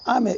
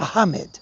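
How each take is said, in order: First: The name is said with anglicized English sounds. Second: The name is said with Arabic-style sounds. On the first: The speaker calls it wrong. "It's not" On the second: The speaker calls it right.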